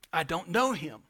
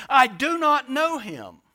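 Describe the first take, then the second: First: Peter's first denial, fairly low-key; restrained denial. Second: Loud, slow, emphatic denial; Peter. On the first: Preacher voices Peter denying Jesus, restrained. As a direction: deny it briefly without raising the voice much. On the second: Preacher voices Peter's last denial of Jesus, loud and emphatic. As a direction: raise pitch and volume, hammering out each word. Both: Retold or imitated.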